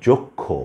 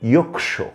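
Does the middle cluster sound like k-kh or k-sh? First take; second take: k-kh; k-sh. First: The cluster sounds like k followed by aspirated kh. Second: The cluster sounds like k followed by sh. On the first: This is the Bengali pronunciation. "ক খ এর মতো উচ্চারিত হচ্ছে" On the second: This is the Sanskrit pronunciation. "এই শব্দটির সংস্কৃত ভাষায় উচ্চারণ হয় ইয়ক্ষ"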